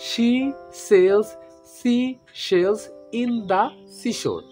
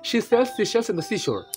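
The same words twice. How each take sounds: First: It is said slowly, word by word. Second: It is said quickly, all in one go. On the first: "এই যে আমি আস্তে আস্তে বললাম" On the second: "জোরে জোরে বলতে চাই ... এই যে আমি একেবারে বলে ফেললাম"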